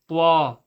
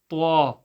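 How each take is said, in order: Both takes have the same delivery.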